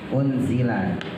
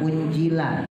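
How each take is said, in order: First: The middle consonant is a z sound. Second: The middle consonant is a j sound. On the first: The speaker calls it right. "Unzi, unzi, ya" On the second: The speaker calls it wrong. "zainya jangan pakai jim, jangan unjila"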